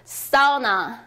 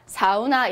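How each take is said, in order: First: The stress is on the first syllable. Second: The stress is on the second syllable. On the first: The speaker calls it right. "앞에 강세를 받아서 이렇게 해주셔야 하는데요" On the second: The speaker calls it wrong. "이렇게 하지 않고요"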